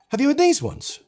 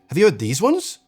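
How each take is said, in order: First: The pitch rises before the end, then drops. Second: The pitch rises toward the very end. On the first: "naturally rising before the end of this polite yes or no question" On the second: "So instead of"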